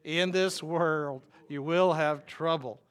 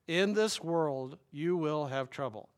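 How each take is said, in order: First: Slow, louder lead for the crowd to echo; call and response. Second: Slow, each word weighed; slow emphatic quote. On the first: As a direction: lead the room through it slowly and loudly. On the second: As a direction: say it slowly for the congregation to follow. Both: Shown as a demonstration. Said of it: "Say that with me".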